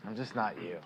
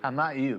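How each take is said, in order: First: "not" leaned on, softer and falling; quieter, stress on "not". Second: Said in the usual way. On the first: Real, not acted. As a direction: drop the voice and lean on "not".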